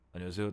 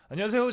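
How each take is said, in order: First: The greeting is low-pitched and flat. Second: The greeting is high-pitched and bright. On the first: It sounds casual, like the speaker's everyday voice. The speaker calls it wrong. "이렇게 하지 말고" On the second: It sounds like official broadcast radio. The speaker calls it right. "뭐 이런 식으로 해야 될 것 같다"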